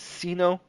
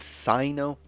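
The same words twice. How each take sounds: First: The first syllable does not sound like Cyrus. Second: The first syllable sounds like in Cyrus. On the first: The speaker calls it wrong. "I'd been pronouncing it as Sino" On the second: The speaker calls it right. "the correct pronunciation that they give him is Sino, like Cyrus, Cyprus"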